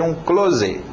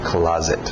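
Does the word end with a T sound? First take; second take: no; yes. First: The word ends without a final T sound. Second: The word ends with a final T sound. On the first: The speaker calls it wrong. "provavelmente ele vai dizer um close" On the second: The speaker calls it right. "É closet"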